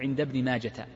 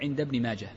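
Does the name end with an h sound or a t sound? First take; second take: t sound; h sound. First: The name ends with a t sound. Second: The name ends with a silent h sound. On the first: The speaker calls it wrong. "لا تجعلها تاء فلا تقول عند ابن ماجة" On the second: The speaker calls it right. "وإنما تقول عند ابن ماجة، فهي هاء ساكنة"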